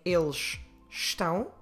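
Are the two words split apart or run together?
split apart. The two words are split apart.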